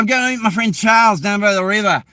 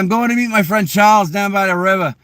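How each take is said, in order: First: It is spoken in an Australian accent. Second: It is spoken in a Boston accent. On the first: "but the Aussies would be like" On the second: "In Boston, we'd be like"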